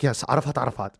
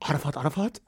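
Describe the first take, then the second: First: Falling, settled answer; plainly assured, acted-out reply; matter-of-fact confirmation. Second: Quiet, rising question; crying halted by bafflement, imitated; acted disbelief. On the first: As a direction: confirm the name as nothing unusual. Lawyer's name confirmed to him. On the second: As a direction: repeat the name softly as a puzzled question. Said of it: "enough to make me stop crying".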